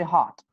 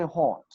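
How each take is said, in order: First: "hot" with an American open ah; American vowel. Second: "hot" with a rounded British o; British vowel. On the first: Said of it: "American people will say hot". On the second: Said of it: "British people will say hot". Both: Shown as a demonstration.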